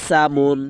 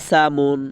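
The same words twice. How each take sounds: The two takes are said the same way.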